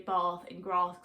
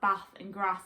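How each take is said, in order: First: It has a southern English accent. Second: It has a northern English accent.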